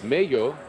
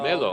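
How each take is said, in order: First: The middle consonant is a Y sound. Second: The middle consonant is a clear L sound. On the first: The speaker calls it wrong. "in Spanish, the two L's would give you the Mayo sound" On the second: The speaker calls it right. "Melo, okay"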